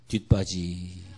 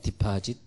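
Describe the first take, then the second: First: The word is garbled to sound like 'dwitbaji'. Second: The word is pronounced clearly as 'dipajit'.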